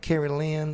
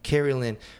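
First: The name is said in a Southern drawl. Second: The name is said in a neutral accent.

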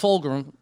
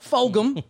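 First: The name is said with an R sound. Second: The name is said without an R sound. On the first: The speaker calls it wrong. "He did it again. There's no R in it" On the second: The speaker calls it right. "There you go"

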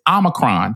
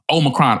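First: The first O is a short vowel. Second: The first O is a long vowel. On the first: The speaker calls it right. "It is Omicron. The long O in Greek is Omega" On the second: The speaker calls it wrong. "Y'all are not saying it correctly"

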